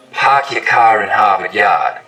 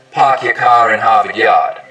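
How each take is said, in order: First: "Park your car in Harvard Yard" with the A of "Park" and "car" pushed forward, slow; Boston fronted start vowel, said slowly. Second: "Park your car in Harvard Yard" with the A of "Park" and "car" pulled far back, Rhode Island style; backed Rhode Island vowel. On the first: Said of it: "In Boston, it's usually pretty fronted". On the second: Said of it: "In Rhode Island, it's back". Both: Shown as a demonstration.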